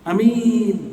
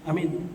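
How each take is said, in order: First: Only the second vowel is held long. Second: Both vowels are kept short. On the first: A person who can be trusted. "a-nya pendek, mi-nya panjang" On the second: Safe. "Kalau bacanya sama-sama pendek"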